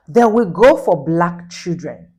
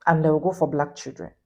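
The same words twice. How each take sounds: First: Each word slowed and pushed louder; indignant, slow and loud; slow, loud emphasis. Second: Said in the usual way. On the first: Real, not acted.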